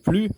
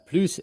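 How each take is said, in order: First: The final S sound is silent. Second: The final S sound is pronounced. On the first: "tu prononces le S ou pas" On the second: "tu prononces le S ou pas"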